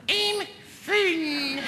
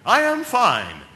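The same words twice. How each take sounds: First: Very high, strained falsetto squeal; squeaky yell. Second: Loud, raised, confident call; yelling back. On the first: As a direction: squeak it out as if dangling by the groin. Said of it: "so what you yell is". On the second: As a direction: shout back a composed all-clear. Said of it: "And you yell back". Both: Acted.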